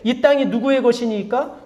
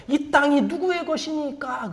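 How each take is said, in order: First: Said in the usual way. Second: Slow, softer question with a drawn-out ending; pious-sounding question. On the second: Acted. Envoy brings Abner's word to David, slow drawn-out question. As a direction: stretch out the envoy's question, softly.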